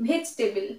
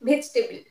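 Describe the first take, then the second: First: A middle syllable is dropped from the word. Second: A middle syllable is dropped from the word.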